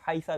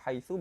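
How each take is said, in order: First: The word ends in an a vowel. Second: The word ends in an u vowel. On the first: "bisa dibaca fathah" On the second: "bisa dibaca dhammah"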